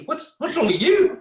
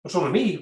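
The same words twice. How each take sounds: First: "you" punched much higher and louder; incredulous rise on "you"; stress on you. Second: "me" leaned on with a rise; mock-baffled, weight on "me"; "me" stressed, puzzled rising tune. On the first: Retold or imitated. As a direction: toss it back, hitting "you" hard. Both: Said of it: "I'm like".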